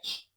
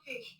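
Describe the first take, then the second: First: The letter is said the standard way. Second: The letter is said the Nigerian way. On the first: The speaker calls it right. "it's H" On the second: The speaker calls it wrong. "My Nigerian people say H. It's not H"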